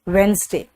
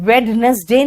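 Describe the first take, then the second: First: The middle letters are dropped, giving two syllables. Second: Every letter is sounded, giving three syllables. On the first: The speaker calls it right. "It's वेंसडे" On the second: The speaker calls it wrong. "वेडनेसडे नहीं होता"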